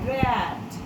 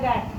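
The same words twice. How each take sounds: First: The vowel is the open ae sound. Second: The vowel is not the open ae sound. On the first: The speaker calls it right. "ये ए pronounce करेगा" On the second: The speaker calls it wrong. "Generally हम लोग बोलते हैं"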